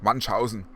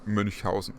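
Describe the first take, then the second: First: The first vowel is a plain u sound. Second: The first vowel is a rounded ü sound. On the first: The speaker calls it wrong. "Everyone says like Munchausen" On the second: The speaker calls it right. "most people in the U S and or English speakers can't really say these Ü words"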